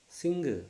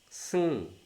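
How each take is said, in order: First: The word ends with an audible hard g sound. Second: The word ends in a nasal with no g. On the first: The speaker calls it wrong. "we Indian learners say that one as sing" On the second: The speaker calls it right. "go sound is not there"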